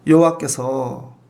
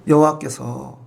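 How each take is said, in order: First: 여호와께서 drawn out slow, pitched lower; slow weighty emphasis. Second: Said in the usual way. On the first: Shown as a demonstration. Preacher marking the new subject, 여호와께서 slowed. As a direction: lean hard on 여호와께서, each syllable slow. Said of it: "자, 보세요. 주어가 이제 바뀌죠". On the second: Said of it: "주어가 이제 바뀌죠".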